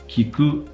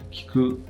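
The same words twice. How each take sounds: First: The first vowel is fully voiced. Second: The first vowel is devoiced. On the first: "that's not bad" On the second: "often in Japanese it's going to sound like kiku"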